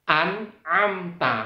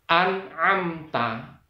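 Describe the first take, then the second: No difference in how they are said.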